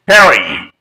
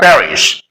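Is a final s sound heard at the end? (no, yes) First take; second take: no; yes. First: The word ends without a final s sound. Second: The word ends with a final s sound. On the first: It follows the French way of saying the name. "you may pronounce Perry, following the French linguistic rules" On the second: It follows the English way of saying the name. "English people pronounce this word Paris"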